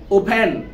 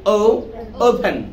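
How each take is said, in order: First: "ওপেন" with closed u-like first vowel; short local vowel opening "ওপেন"; students' wrong vowel. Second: "ওপেন" with a long "ou" glide; slow, drawn-out O opening "ওপেন"; correct O sound. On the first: Teacher mimics students' pronunciation, "ওপেন" with short closed vowel. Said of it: "তোমরা যদি উ উচ্চারণ করো". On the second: Teacher shows students the correct way, "ওপেন" with ou glide. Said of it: "আর যদি সঠিক উচ্চারণটা করি". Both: Shown as a demonstration.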